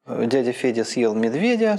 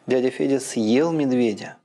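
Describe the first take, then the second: First: The stress falls on медведя. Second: The stress falls on съел. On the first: The new information is what was eaten. "медведя – это и есть рема" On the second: The new information is what he did. "а новая информация – это то, именно, что он съел"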